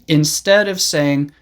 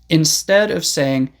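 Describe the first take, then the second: The two takes are said the same way.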